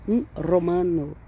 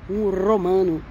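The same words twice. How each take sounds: No difference in how they are said.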